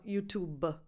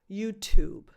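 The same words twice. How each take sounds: First: Italian-accented "YouTube" with extra schwa after the B. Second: "YouTube" stopped right on the final B; loud "YouTube", no vowel after the B; clean final B. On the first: Teacher showing the common mistake, Italian-accented "YouTube-uh". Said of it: "Because with an Italian accent". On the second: Teacher correcting learners, "YouTube" ending at the B. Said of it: "stop at the actual sound of the final B". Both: Shown as a demonstration.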